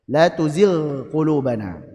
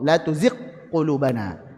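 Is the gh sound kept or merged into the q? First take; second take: kept; merged. First: The gh sound is kept separate from q. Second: The gh sound merges into the following q. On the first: The speaker calls it right. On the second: The speaker calls it wrong.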